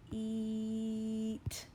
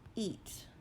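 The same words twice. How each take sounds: First: The word is stretched out slowly, sound by sound. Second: The word is said quickly as one unit. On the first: "I'm going to say a word slowly" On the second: "Say it fast"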